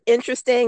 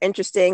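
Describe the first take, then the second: First: It is said in a wounded, hurt tone. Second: It is said in a dismissive, unbothered tone. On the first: The remark caused pain. "It hurt interesting" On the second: The remark is brushed off without concern. "you can think that way, but this is what I'm doing"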